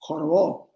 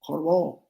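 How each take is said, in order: The two takes are said the same way.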